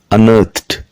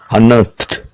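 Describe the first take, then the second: First: The ending is a t sound. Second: The same.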